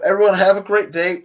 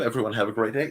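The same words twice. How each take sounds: First: Higher, louder cheerful goodbye; cheery sign-off. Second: Said in the usual way. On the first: Real, not acted. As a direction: send everyone off brightly. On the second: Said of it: "Yep, everyone have a great day".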